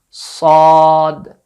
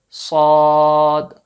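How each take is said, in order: Both takes have the same delivery.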